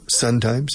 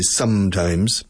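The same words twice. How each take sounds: First: The first syllable ends with an N sound. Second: The first syllable ends with an M sound. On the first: The speaker calls it wrong. "Tiempos de sol" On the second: The speaker calls it right. "in vez de sometimes"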